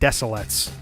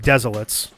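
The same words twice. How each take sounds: First: The name has soft s sounds in both places. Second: The name has z sounds in both places. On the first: "soft s's on both" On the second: "the lazy way of pronouncing it"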